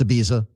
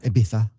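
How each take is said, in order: First: The name is said with an American pronunciation. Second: The name is said with a Spanish-style pronunciation. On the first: The speaker calls it right. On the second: The speaker calls it wrong.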